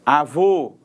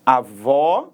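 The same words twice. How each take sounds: First: "Avô" with a closed, rounded ô; closed final vowel. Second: "avó" with a wide-open ó; open final vowel. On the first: Teacher showing the circumflex, closed vowel on "Avô". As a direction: say "Avô" ending in a tight "oh" sound. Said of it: "som fechado". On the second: Teacher showing the acute accent, open vowel on "avó". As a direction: say "avó" ending in an open "aw" sound. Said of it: "acento agudo". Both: Shown as a demonstration.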